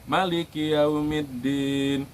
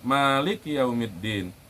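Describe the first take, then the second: First: The first vowel is kept short. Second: The first vowel is drawn out long. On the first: The king of the Day of Judgement. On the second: The one who owns or controls the Day of Judgement.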